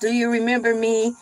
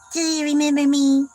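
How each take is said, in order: First: It is said in his normal voice. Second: It is said in a put-on Bella Swan voice.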